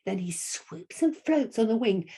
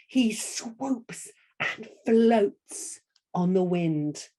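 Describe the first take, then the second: First: Said in the usual way. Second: Slow, "swoops" and "floats" drawn out; slow gliding storyteller delivery; swooping and floating. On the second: Shown as a demonstration. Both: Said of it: "I'm gonna say it like that".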